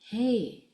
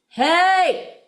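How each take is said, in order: First: The word is said very quietly. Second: The word is said very loudly. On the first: "really quietly" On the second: "really loud"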